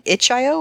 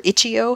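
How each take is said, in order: First: "itch I O" with I said as "eye"; "itch I O", the I as a long letter name; spelled-out pronunciation. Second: "itch E O" with E said as "ee"; "itch E O", run together as itchy-oh; alternative pronunciation. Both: Shown as a demonstration. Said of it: "however you pronounce it".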